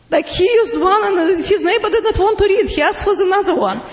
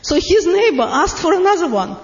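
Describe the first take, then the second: First: Talking through laughter; laughing. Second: Said in the usual way. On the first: Real, not acted. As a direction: laugh while you tell it. Laughs while retelling the story.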